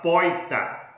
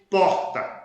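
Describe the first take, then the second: First: It is said with an inland Minas regional accent. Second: It is said with a Bahian regional accent. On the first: "no interior de Minas Gerais é muito comum" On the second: "como se fala na Bahia"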